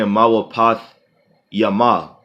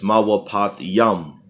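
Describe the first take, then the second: First: The last word ends with an extra vowel. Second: The last word ends on a consonant. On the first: The speaker calls it wrong. "you're not saying mawapath yama" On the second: The speaker calls it right. "it's mawapath yam"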